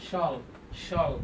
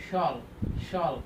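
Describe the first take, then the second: The two takes are said the same way.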